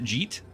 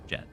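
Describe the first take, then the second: First: The vowel is a long 'ee' sound. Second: The vowel is a short 'e' sound. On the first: The speaker calls it wrong. "I used to pronounce it Jeet" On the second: The speaker calls it right. "his name is pronounced Jet"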